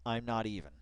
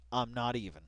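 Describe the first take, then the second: No difference in how they are said.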